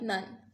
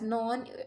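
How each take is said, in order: First: The vowel sounds like the one in 'sun'. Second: The vowel sounds like the one in 'gone'. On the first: It breaks the poem's rhyme. The speaker calls it wrong. "and not like none" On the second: It rhymes with the poem's next line. The speaker calls it right. "we are supposed to pronounce it as non"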